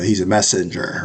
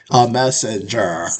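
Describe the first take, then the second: First: Said in the usual way. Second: "A messenger." said slowly with weight, a winking reference; slow knowing stress. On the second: Shown as a demonstration. Joking to viewers about the reference, slow and knowing. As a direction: lean on "A messenger." slowly as an in-joke. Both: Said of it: "If you get the reference".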